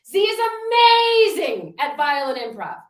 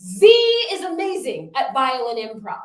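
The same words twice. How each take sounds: First: "Z is" up high and loud, then a pause and "violin" leaned on; stress on violin. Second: "amazing" lifted and leaned on in "Z is amazing at violin improv"; stress on amazing. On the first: Workshop host demonstrating her affirmation with "violin" stressed. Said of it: "put emphasis on a different word". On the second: Workshop host demonstrating her affirmation with "amazing" stressed. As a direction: hit the word "amazing" hardest. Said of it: "I'm gonna demonstrate". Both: Shown as a demonstration.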